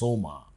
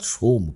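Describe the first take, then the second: First: The word ends in a drawn-out final vowel. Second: The word ends on a consonant, not drawn out. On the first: "একটু টেনে উচ্চারণ করি" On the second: "অর্থাৎ সোম"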